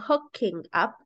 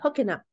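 First: The two words are said separately. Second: The two words are linked together. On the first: "instead of saying" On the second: "the way that natives link their words together"

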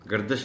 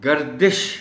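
First: The d is followed by a vowel other than i. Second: The d is followed by a short i vowel. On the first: The speaker calls it wrong. "गर्दिश नहीं पढ़ा जा सकता" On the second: The speaker calls it right. "दाल के नीचे ज़ेर है"

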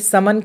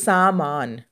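First: The first two syllables have short vowels. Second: The first two syllables have long vowels. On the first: The speaker calls it wrong. "अगर आपने समन कर दिया, आ की मात्रा आपने स में म में हटा दिया तो ये गलत हो जाएगा" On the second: The speaker calls it right. "तो सामान"

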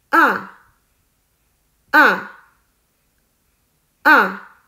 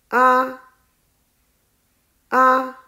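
First: The pitch falls sharply from high to low. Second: The pitch stays high and level. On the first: "第四声也叫做去声，声音是向下。" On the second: "第一声是平的，读作啊。"

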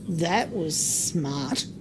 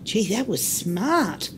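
First: It is said with a sarcastic tone. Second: It is said as a sincere compliment.

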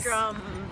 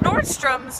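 First: The name ends without an S sound. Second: The name ends with an S sound. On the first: The speaker calls it right. "No S" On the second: The speaker calls it wrong. "You saying it with an S on the end"

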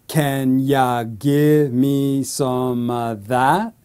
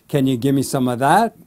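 First: The question is spoken slowly. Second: The question is spoken fast. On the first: "So slowly"

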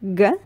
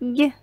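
First: The consonant is hard, not palatalized. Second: The consonant is soft and palatalized. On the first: "First, hard consonant" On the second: "then soft consonant"

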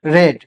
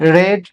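Both takes have the same delivery.

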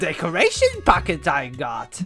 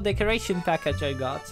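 First: It is said in a Yoda impression voice. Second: It is said in his normal voice.

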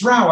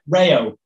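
First: The name is said in one syllable, rhyming with cow. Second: The name is said in two syllables, ray-oh. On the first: This is how people in Europe say the name. The speaker calls it right. "It's like in Europe, it's Rao" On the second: This is how people in America say the name. The speaker calls it wrong. "maybe if I'm in the States, I will have to say it"

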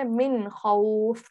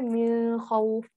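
First: The n is clear and short before kh. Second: The n is nasalized and held before kh. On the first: The speaker calls it right. "We say min khawf" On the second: The speaker calls it wrong. "we do not say min khawf"

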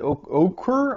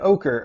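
First: The name is said like 'oh-keer'. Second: The name is said like 'oaker'. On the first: "I would pronounce it Oquir" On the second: "you just say ochre"

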